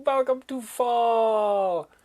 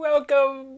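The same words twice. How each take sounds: First: Much lower and slow, stretching the words; a slow, low-voiced welcome; drawn-out low welcome. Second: Said in the usual way. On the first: Shown as a demonstration. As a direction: sink the voice and slow right down. Repeated greeting, slowed and lowered.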